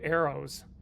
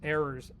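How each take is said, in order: First: The word is said in a neutral accent. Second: The word is said in a Southern US accent. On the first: The speaker calls it right. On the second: The speaker calls it wrong.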